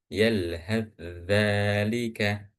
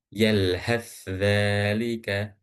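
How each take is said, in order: The two takes are said the same way.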